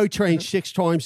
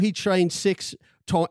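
First: It is said in a put-on Cockney accent. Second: It is said in the speaker's usual accent.

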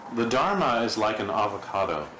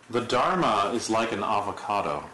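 First: It is said with exclamatory energy. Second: It is said in a plain, flat way.

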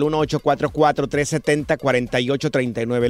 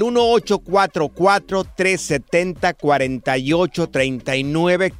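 First: The number is said fast. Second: The number is said slowly.

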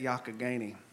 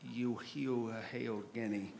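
First: The name is said with its local pronunciation. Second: The name is sounded out following its spelling. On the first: The speaker calls it right. "we learned how to say it" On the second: The speaker calls it wrong. "looks like it would be pronounced Youghiogheny"

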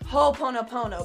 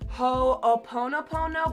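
First: The two opening O sounds are merged together. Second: The two opening O sounds are said separately.

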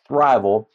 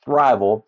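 First: It is said with two syllables, like thrive-al. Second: The same.

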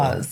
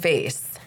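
First: Vase is said with a British pronunciation. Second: Vase is said with an American pronunciation.

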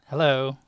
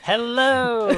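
First: It is said with ordinary, low energy. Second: It is said with more energy.

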